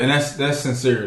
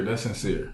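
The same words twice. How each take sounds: First: Said in the usual way. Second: Sincere. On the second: Real, not acted.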